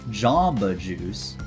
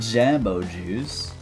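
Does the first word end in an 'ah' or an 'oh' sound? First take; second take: ah; oh. First: The first word ends in an 'ah' sound. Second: The first word ends in an 'oh' sound. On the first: The speaker calls it right. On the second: The speaker calls it wrong. "Not Jambo Juice"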